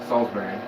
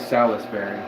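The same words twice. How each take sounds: First: Some letters of the word are not sounded. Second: Every letter of the word is sounded out. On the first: The speaker calls it right. "you don't pronounce all the letters" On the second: The speaker calls it wrong. "don't say Salisbury"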